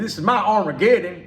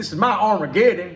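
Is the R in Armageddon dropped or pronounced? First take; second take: pronounced; pronounced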